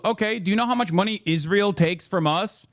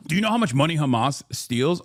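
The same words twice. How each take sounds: First: Said in the usual way. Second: Lower, sing-song mock of the "Do you know how much money Hamas steals?" line with a rise on "much"; a touch of mock incredulity; mocking quote. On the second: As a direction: parrot the silly question back. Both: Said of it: "It's also hilarious to f-, say".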